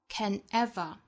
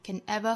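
First: The words are separated, with ever stressed. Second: The words are linked smoothly together, said faster. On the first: "把 ever 这个词做重读，更强调一些，不和前面的 can 做连读" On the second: "语速比较快，比较平缓的话呢，我们可以连读成 can ever"

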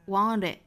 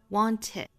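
First: The t is a quick flap before it. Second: The t is fully pronounced before it. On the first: "把 t 发成 flap t" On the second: "英音里面的这个 want it"

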